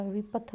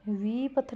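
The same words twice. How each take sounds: First: Said in the usual way. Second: विपथ said as "veepath"; wrong long vowel. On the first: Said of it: "विपथ होता है". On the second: Shown as a demonstration. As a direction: stretch "vee" in विपथ. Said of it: "विपथ नहीं होता". (विपथ में "वी" लंबा करके)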